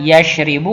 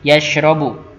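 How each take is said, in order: First: The vowel after the r is i. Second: The vowel after the r is a. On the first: The speaker calls it wrong. "tidak yashribu" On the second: The speaker calls it right. "tapi yashrobu"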